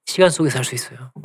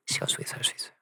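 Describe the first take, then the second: First: Said in the usual way. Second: Hushed, very soft whisper; whispered repeat. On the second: Real, not acted. Preacher repeating to congregation what time allows, whispering. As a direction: drop to a whisper to let it sink in.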